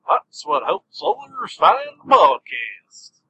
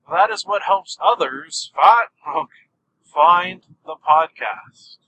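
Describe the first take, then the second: First: It is said in a put-on voice. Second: It is said in his normal voice.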